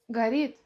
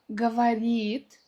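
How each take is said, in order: First: The word is said shortened, a syllable dropped. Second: The word is said in full, every syllable. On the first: "в быстрой речи мы скажем как" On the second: "Слово «говорит»"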